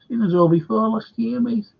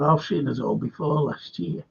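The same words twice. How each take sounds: First: Sarcastic echo, pitched up; mocking older fella. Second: Said in the usual way. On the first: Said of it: "he goes, Daggers, older fella". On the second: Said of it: "I said".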